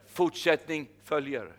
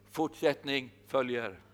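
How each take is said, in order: First: Slow, weighty Fortsättning följer with the stress on Fortsättning; slow proclamation. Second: Fortsättning följer repeated slowly and softer, falling at the end. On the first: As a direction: spell out Fortsättning följer slowly, each syllable weighted. (långsamt och tungt: Fortsättning följer) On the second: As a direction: let Fortsättning följer sink in quietly. (tyst och långsamt: Fortsättning följer) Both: Shown as a demonstration. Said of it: "jag har ett ord till dig".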